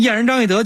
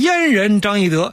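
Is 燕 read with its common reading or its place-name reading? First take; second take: common; place-name. First: 燕 takes its common modern reading. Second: 燕 takes its old place-name reading. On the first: The speaker calls it wrong. "所以你现在念燕人张翼德就错了" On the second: The speaker calls it right. "应该念燕人张翼德"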